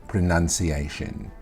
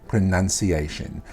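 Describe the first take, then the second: The two takes are said the same way.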